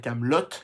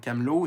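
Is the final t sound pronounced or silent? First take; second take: pronounced; silent. First: The final t sound is pronounced. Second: The final t sound is silent. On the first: The speaker calls it right. "deux T pour, euh, pour qu'on prononce le Camelot" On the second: The speaker calls it wrong. "non Camelot"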